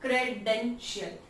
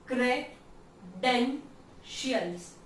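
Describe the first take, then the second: First: Said in the usual way. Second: credentials slowly split as cre-den-shials; syllable by syllable. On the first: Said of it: "तीन जहां पे sounds बन रहे". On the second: Shown as a demonstration. Teacher showing three sounds in a word, syllable by syllable. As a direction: pause after each beat of credentials. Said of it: "तीन जहां पे sounds बन रहे हैं".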